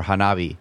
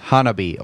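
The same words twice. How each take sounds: First: Hanabi as hah-NAH-bee; second-syllable stress. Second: Hanabi as HAH-nuh-bee; first-syllable stress. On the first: Co-host offering the other reading, Hanabi as hah-NAH-bee. Gives second pronunciation on request. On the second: Co-host repeating the name for the host, Hanabi as HAH-nuh-bee. Gives first pronunciation on request. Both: Shown as a demonstration.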